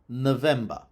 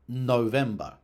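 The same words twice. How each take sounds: First: The first vowel is a reduced schwa. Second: The first vowel is a long O. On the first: This is the newer pronunciation. "the newer pronunciation was with a schwa" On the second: This is the older pronunciation. "the older pronunciation was with a long O"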